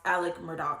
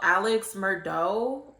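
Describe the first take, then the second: First: The first name ends with a 'k' sound. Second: The first name ends with a 'ks' sound. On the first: This is how the name is really said. The speaker calls it right. "it's actually pronounced Alec Murdaugh" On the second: This is how the spelling suggests it is said. The speaker calls it wrong. "that's probably what you would pronounce it as"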